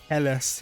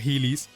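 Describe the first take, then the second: First: It does not sound like the skate-shoe brand. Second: It sounds like the skate-shoe brand Heelys. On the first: The speaker calls it right. "It's definitely got to be Heles" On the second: The speaker calls it wrong. "It's definitely not Heelys"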